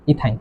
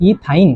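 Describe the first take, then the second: First: Said in the usual way. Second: ইথাইন split as "ee... thain"; spaced-out pronunciation. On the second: Shown as a demonstration. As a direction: separate the ই from থাইন in ইথাইন. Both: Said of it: "কি হবে?".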